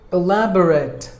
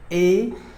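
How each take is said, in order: First: Said in the usual way. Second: "E-lab-er-at" in four separate pieces; syllable by syllable. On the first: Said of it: "Word number two". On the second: Shown as a demonstration. Teacher breaking down the word for learners, "E-lab-er-at" split up. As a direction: pause between each part of "E-lab-er-at". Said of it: "There are four syllables".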